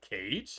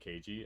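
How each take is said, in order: First: The name is said as one syllable. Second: The name is said as two syllables. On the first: The speaker calls it right. "Do you mean Cage?" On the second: The speaker calls it wrong. "I was saying K G, and I was like, that doesn't sound right"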